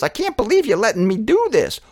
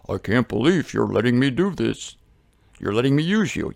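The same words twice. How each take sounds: First: High, amazed little bird voice; high-pitched character, marvelling; tick bird. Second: Low, amazed rhino voice; lower-pitched character, marvelling. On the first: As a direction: pipe it up in disbelief. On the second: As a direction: answer lower, as the big beast. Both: Acted. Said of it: "Each one looks at the other".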